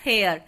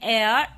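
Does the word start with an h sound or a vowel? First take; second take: h sound; vowel. First: The word begins with an audible h sound. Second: The word begins directly with a vowel sound. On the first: The speaker calls it wrong. "Instead of हेयर" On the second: The speaker calls it right. "इसको हम pronounce करते हैं एयर"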